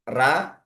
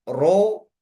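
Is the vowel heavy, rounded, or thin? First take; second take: thin; rounded. First: The syllable has a thin, light a vowel. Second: The syllable has a rounded o vowel. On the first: "Ada baca dengan ra, ah, bukan ini yang benar" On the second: "Ada yang baca dengan ro, ah, pakai o, itu juga tidak benar"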